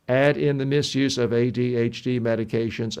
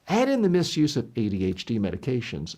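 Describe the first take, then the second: First: It is read in a flat, unchanging monotone. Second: Loudness and speed rise and fall throughout. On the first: The reader is stiff and nervous. The speaker calls it wrong. "They become monotone" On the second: The reader comes across well. The speaker calls it right. "my voice volume went up and down and fast and slow"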